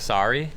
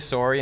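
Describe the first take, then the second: First: It is said with an American accent. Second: It is said with a Canadian accent. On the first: "instead of sorry" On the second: "It's going to say sorry"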